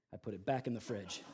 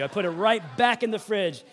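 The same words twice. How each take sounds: First: Low, soft deadpan delivery; understated punchline. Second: Loud, punched stress on "right back"; emphatic repeat. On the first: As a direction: drop the reveal quietly. First, understated take of punchline. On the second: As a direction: insist proudly, hitting "right back" hard. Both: Real, not acted.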